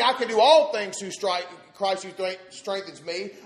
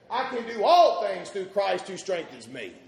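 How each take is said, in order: First: It is said haltingly, with broken-off words. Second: It is said smoothly and clearly without breaks.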